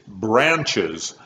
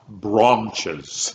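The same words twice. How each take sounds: First: It is said with an American accent. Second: It is said with a British accent. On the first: The speaker calls it right. "they wanted an American accent" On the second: The speaker calls it wrong. "not branches"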